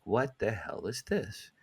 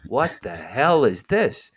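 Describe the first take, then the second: First: Much softer, slow, stunned question; hushed disbelief. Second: Slow, drawn-out astonished question; stunned disbelief. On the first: Holding the placemat, he asks himself softly, stunned. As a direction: barely breathe the words. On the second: Waiting for his sandwich, he gapes at the vision, astonished. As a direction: stare at the thing and ask slowly. Bewildered reaction at the deli. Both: Retold or imitated.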